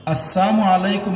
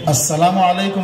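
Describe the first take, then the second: First: "আসসালামু আলাইকুম" as "as-saamu alaikum"; laam left out. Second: "আসসালামু আলাইকুম" as "as-salaamu alaikum"; laam pronounced. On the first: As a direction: say "আসসালামু আলাইকুম" with saam for salaam. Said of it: "লাম অক্ষর বাদ দিলে". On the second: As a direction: keep the "laa" in "আসসালামু আলাইকুম". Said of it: "লাম একটা অক্ষর আছে". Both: Shown as a demonstration.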